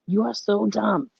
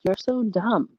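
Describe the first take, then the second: First: Slow, higher, "You are" spelled out in full; emphatic self-scolding. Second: Higher-pitched mock reproach; mild self-scolding. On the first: Retold or imitated. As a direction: draw out "are so dumb" in mock reproach. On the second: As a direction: lightly chide yourself. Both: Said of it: "start talking to yourself".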